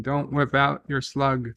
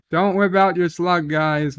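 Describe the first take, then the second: First: Said in the usual way. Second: Emphatic repeat. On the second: Shown as a demonstration. To chat, repeating the slug warning as a loud mock warning. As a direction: say it again like a mock public warning to the guys.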